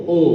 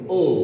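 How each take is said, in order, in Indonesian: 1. Vokalnya tebal dan membulat, seperti o. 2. Vokalnya tebal dan membulat, seperti o.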